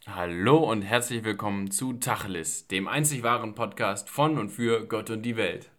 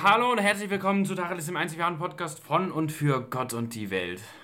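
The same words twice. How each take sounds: First: The voice is reserved and restrained. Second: The voice is extravagant and showy.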